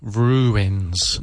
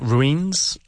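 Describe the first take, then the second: First: The word is said with two syllables. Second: The word is said with one syllable. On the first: The speaker calls it right. "Make sure you say ooh, ruins" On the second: The speaker calls it wrong. "not ruins"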